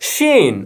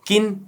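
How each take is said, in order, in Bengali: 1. নামটি sh ধ্বনি দিয়ে শুরু হয়। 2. নামটি k ধ্বনি দিয়ে শুরু হয়। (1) "এটার উচ্চারণ হবে শিন" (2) "কিউআইএন কি হয় কিন"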